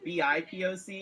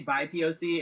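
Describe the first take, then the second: First: Each letter is spoken separately, one by one. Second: The first two letters blend into one syllable. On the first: "if it's just B I P O C" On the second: "It sounds like bisexual"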